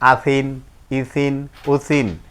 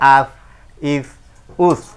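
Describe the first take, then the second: First: Each syllable ends with its full nasal ending. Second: Each syllable stops short on its consonant. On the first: The reader continues without stopping. "না থামিলে যেমন আছে তেমন করে পড়তে হয়" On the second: The reader stops at this point. "এটাই আরজি সাকিন দুই জেরে থামিলে সাকিন ধরে পড়তে হয়"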